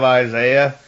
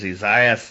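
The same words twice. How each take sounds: First: The name is said in a non-British way. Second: The name is said in a British way.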